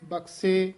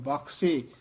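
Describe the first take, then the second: First: The middle consonant is a plain unaspirated k. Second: The middle consonant is an aspirated kh. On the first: The speaker calls it wrong. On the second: The speaker calls it right.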